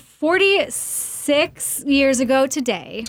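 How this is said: The voice rises at the end like a question. It sounds like a question. "Sounds like a question"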